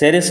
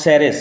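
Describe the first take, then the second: First: The name begins with a 'sa' sound. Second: The name begins with a 'sa' sound.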